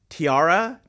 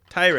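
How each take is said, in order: First: It is said with three syllables, like tiara. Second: It is said as one syllable, like tire. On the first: The speaker calls it wrong. "It's not tiara" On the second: The speaker calls it right. "It's t- tire"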